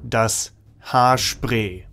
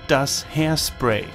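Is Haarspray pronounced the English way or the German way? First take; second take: German; English. First: Haarspray is said with a German pronunciation. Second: Haarspray is said with an English-like pronunciation.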